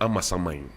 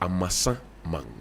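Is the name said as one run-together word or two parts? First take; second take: one word; two parts. First: The name is run together as one word. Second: The name is split into two separate parts. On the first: The speaker calls it wrong. "It's not Ama, Amasaman" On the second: The speaker calls it right. "It's Amasa Man"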